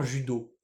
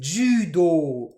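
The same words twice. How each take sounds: First: Said in the usual way. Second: JUDO with both vowels held long; Japanese judo. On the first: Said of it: "en français, on l'écrit tout simplement judo". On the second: Shown as a demonstration. Teacher showing students the Japanese word, JUDO with long vowels. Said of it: "En japonais, c'est judo. On a deux allongements".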